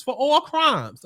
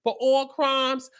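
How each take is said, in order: First: "for all crimes" slowly, every word weighted; slow stress on all. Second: "For all crimes" slow, "all" hit hard; slow stress on all. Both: Shown as a demonstration.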